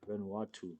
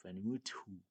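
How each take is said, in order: First: Vanuatu said clearly as "van-WAH-too"; corrected Vanuatu. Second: Vanuatu said as "Enutu", the first syllable dropped; fumbled Vanuatu. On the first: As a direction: get Vanuatu right this time, every syllable. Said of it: "Oh, my bad". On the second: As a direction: stumble through Vanuatu, unsure of the sounds. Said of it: "how do you pronounce that?". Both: Real, not acted.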